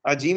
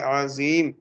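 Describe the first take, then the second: First: The middle consonant is a j sound. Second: The middle consonant is a z sound. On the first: The speaker calls it wrong. "अजीम कह दिया तो मामला गड़बड़ हो जाएगा, जीम के साथ नहीं" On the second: The speaker calls it right. "ज़ा के साथ ही कहेगा"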